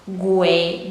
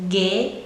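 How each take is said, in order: First: A u sound is heard after the g. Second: No u sound is heard after the g. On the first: The speaker calls it wrong. "You're not saying letter U, so it's not gue" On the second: The speaker calls it right. "It's ge"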